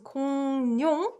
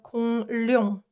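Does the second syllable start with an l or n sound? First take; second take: n; l. First: The second syllable starts with an n sound. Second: The second syllable starts with an l sound. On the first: The speaker calls it right. "it's pronounced" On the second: The speaker calls it wrong. "instead of"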